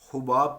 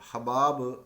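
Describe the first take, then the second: First: The first syllable has a 'u' vowel. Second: The first syllable has an 'a' vowel. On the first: The speaker calls it wrong. "कुछ लोग हुबाब पढ़ते हैं पेश के साथ, ये गलत है" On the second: The speaker calls it right. "ये लफ्ज़ हबाब अरबी का लफ्ज़ है"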